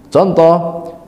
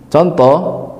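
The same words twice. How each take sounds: No difference in how they are said.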